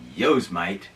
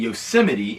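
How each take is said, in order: First: The name is given a childish mispronunciation. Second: The name has its usual pronunciation.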